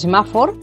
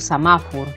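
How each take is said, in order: First: The unstressed vowels keep their written e and o. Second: The unstressed vowels are reduced, o sounding like u. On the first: The speaker calls it wrong. "no he dicho semáfor" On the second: The speaker calls it right. "sino que he dicho samafur"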